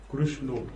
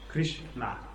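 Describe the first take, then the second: First: It is said with a Bengali pronunciation. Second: It is said with the standard pronunciation. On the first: The speaker calls it wrong. "Not Krishna. Ramo. That is Bengali pronunciation" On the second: The speaker calls it right. "It is pronounced Sri Krishna"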